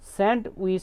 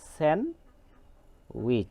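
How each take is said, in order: First: The d sound is pronounced after n. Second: The d sound is left out entirely. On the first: The speaker calls it wrong. "স্যান্ডউইচ হবে না" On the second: The speaker calls it right. "হবে স্যান্ডউইচ"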